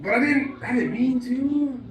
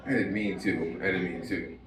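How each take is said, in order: First: High, slow whiny protest; whiny kid. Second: Lower, softer mumble; mumbled repeat. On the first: Kid pleading his innocence in a high whine. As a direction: plead like a kid who got caught. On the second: Comic repeats the excuse in a low, soft mumble. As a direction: mutter it to yourself, deflated. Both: Retold or imitated.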